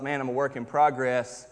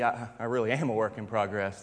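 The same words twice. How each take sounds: First: Said in the usual way. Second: Quiet realization. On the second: Retold or imitated. Same thought repeated, softer.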